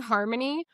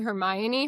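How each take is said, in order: First: The name is said as harmony. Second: The name is said as her-my-oh-nee. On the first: The speaker calls it wrong. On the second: The speaker calls it right.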